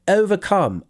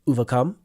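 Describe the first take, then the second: First: The first vowel is a clear 'oh' sound. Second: The first vowel is not a clear 'oh' sound. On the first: The speaker calls it right. "It's O" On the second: The speaker calls it wrong. "You said overcome"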